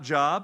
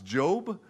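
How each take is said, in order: First: The vowel is short, like in 'jobs'. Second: The vowel is long, like in 'robe'. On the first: The speaker calls it wrong. "It's not Job" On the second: The speaker calls it right. "It's Job, right?"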